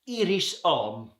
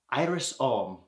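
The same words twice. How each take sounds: First: The name is said with French pronunciation. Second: The name is said with English pronunciation.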